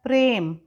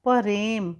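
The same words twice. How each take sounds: First: प्रेम with a tight pr, prem; प्रेम said correctly; correct cluster. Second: परेम with an added vowel, pa-rem; परेम said the wrong way; wrong split pronunciation. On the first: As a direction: join p and r in प्रेम. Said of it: "शुद्ध शब्द होता है प्रेम". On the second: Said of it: "परेम नहीं होता है". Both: Shown as a demonstration.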